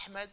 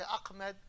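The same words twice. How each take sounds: First: Ahmed with a breathy throat ha; correct Arabic ha. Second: Ahmed with k in place of ha; American mispronunciation. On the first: Shown as a demonstration. Teacher showing the name Westerners struggle with, proper ha. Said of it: "They don't know how to pronounce". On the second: Retold or imitated. Teacher imitating Americans who struggle, mispronounced Ahmed. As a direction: harden the h of Ahmed to a k. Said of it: "A lot of Americans, they struggle".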